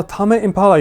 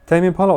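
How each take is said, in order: First: "Tame" as two syllables, TAH-meh; exclaimed "Tame" as TAH-meh, higher; Japanese-style pronunciation. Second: "Tame" as one syllable, taym; "Tame" with a long English A, silent E; English pronunciation. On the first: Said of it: "if words are pronounced Japanese way". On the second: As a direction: say "Tame" to rhyme with lame. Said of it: "Tame is in lame". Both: Shown as a demonstration.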